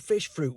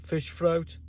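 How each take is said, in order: First: It is said in a Cockney accent. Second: It is said in a Birmingham accent. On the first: "In Cockney London" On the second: "in Birmingham, this might be"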